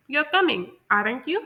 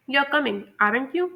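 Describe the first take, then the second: First: "You're coming, aren't you?" with pitch climbing steeply on you; American tune, lifting "aren't you" into a real question; American rising tag. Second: "You're coming, aren't you?" as a British confirming tag question; British tune, meant to fall on "aren't you". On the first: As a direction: send you sharply upward at the end. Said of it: "rising pitch के साथ". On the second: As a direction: say "aren't you" as a contained British check, little lift. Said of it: "ये एक तरह की falling pitch है". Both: Shown as a demonstration.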